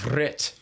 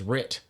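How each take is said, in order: First: The name is said with a Welsh pronunciation. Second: The name is said with an English pronunciation.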